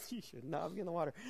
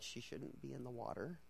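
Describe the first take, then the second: First: Husband's line. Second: Muttered aside. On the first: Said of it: "and he's like". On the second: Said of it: "We're like". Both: Retold or imitated.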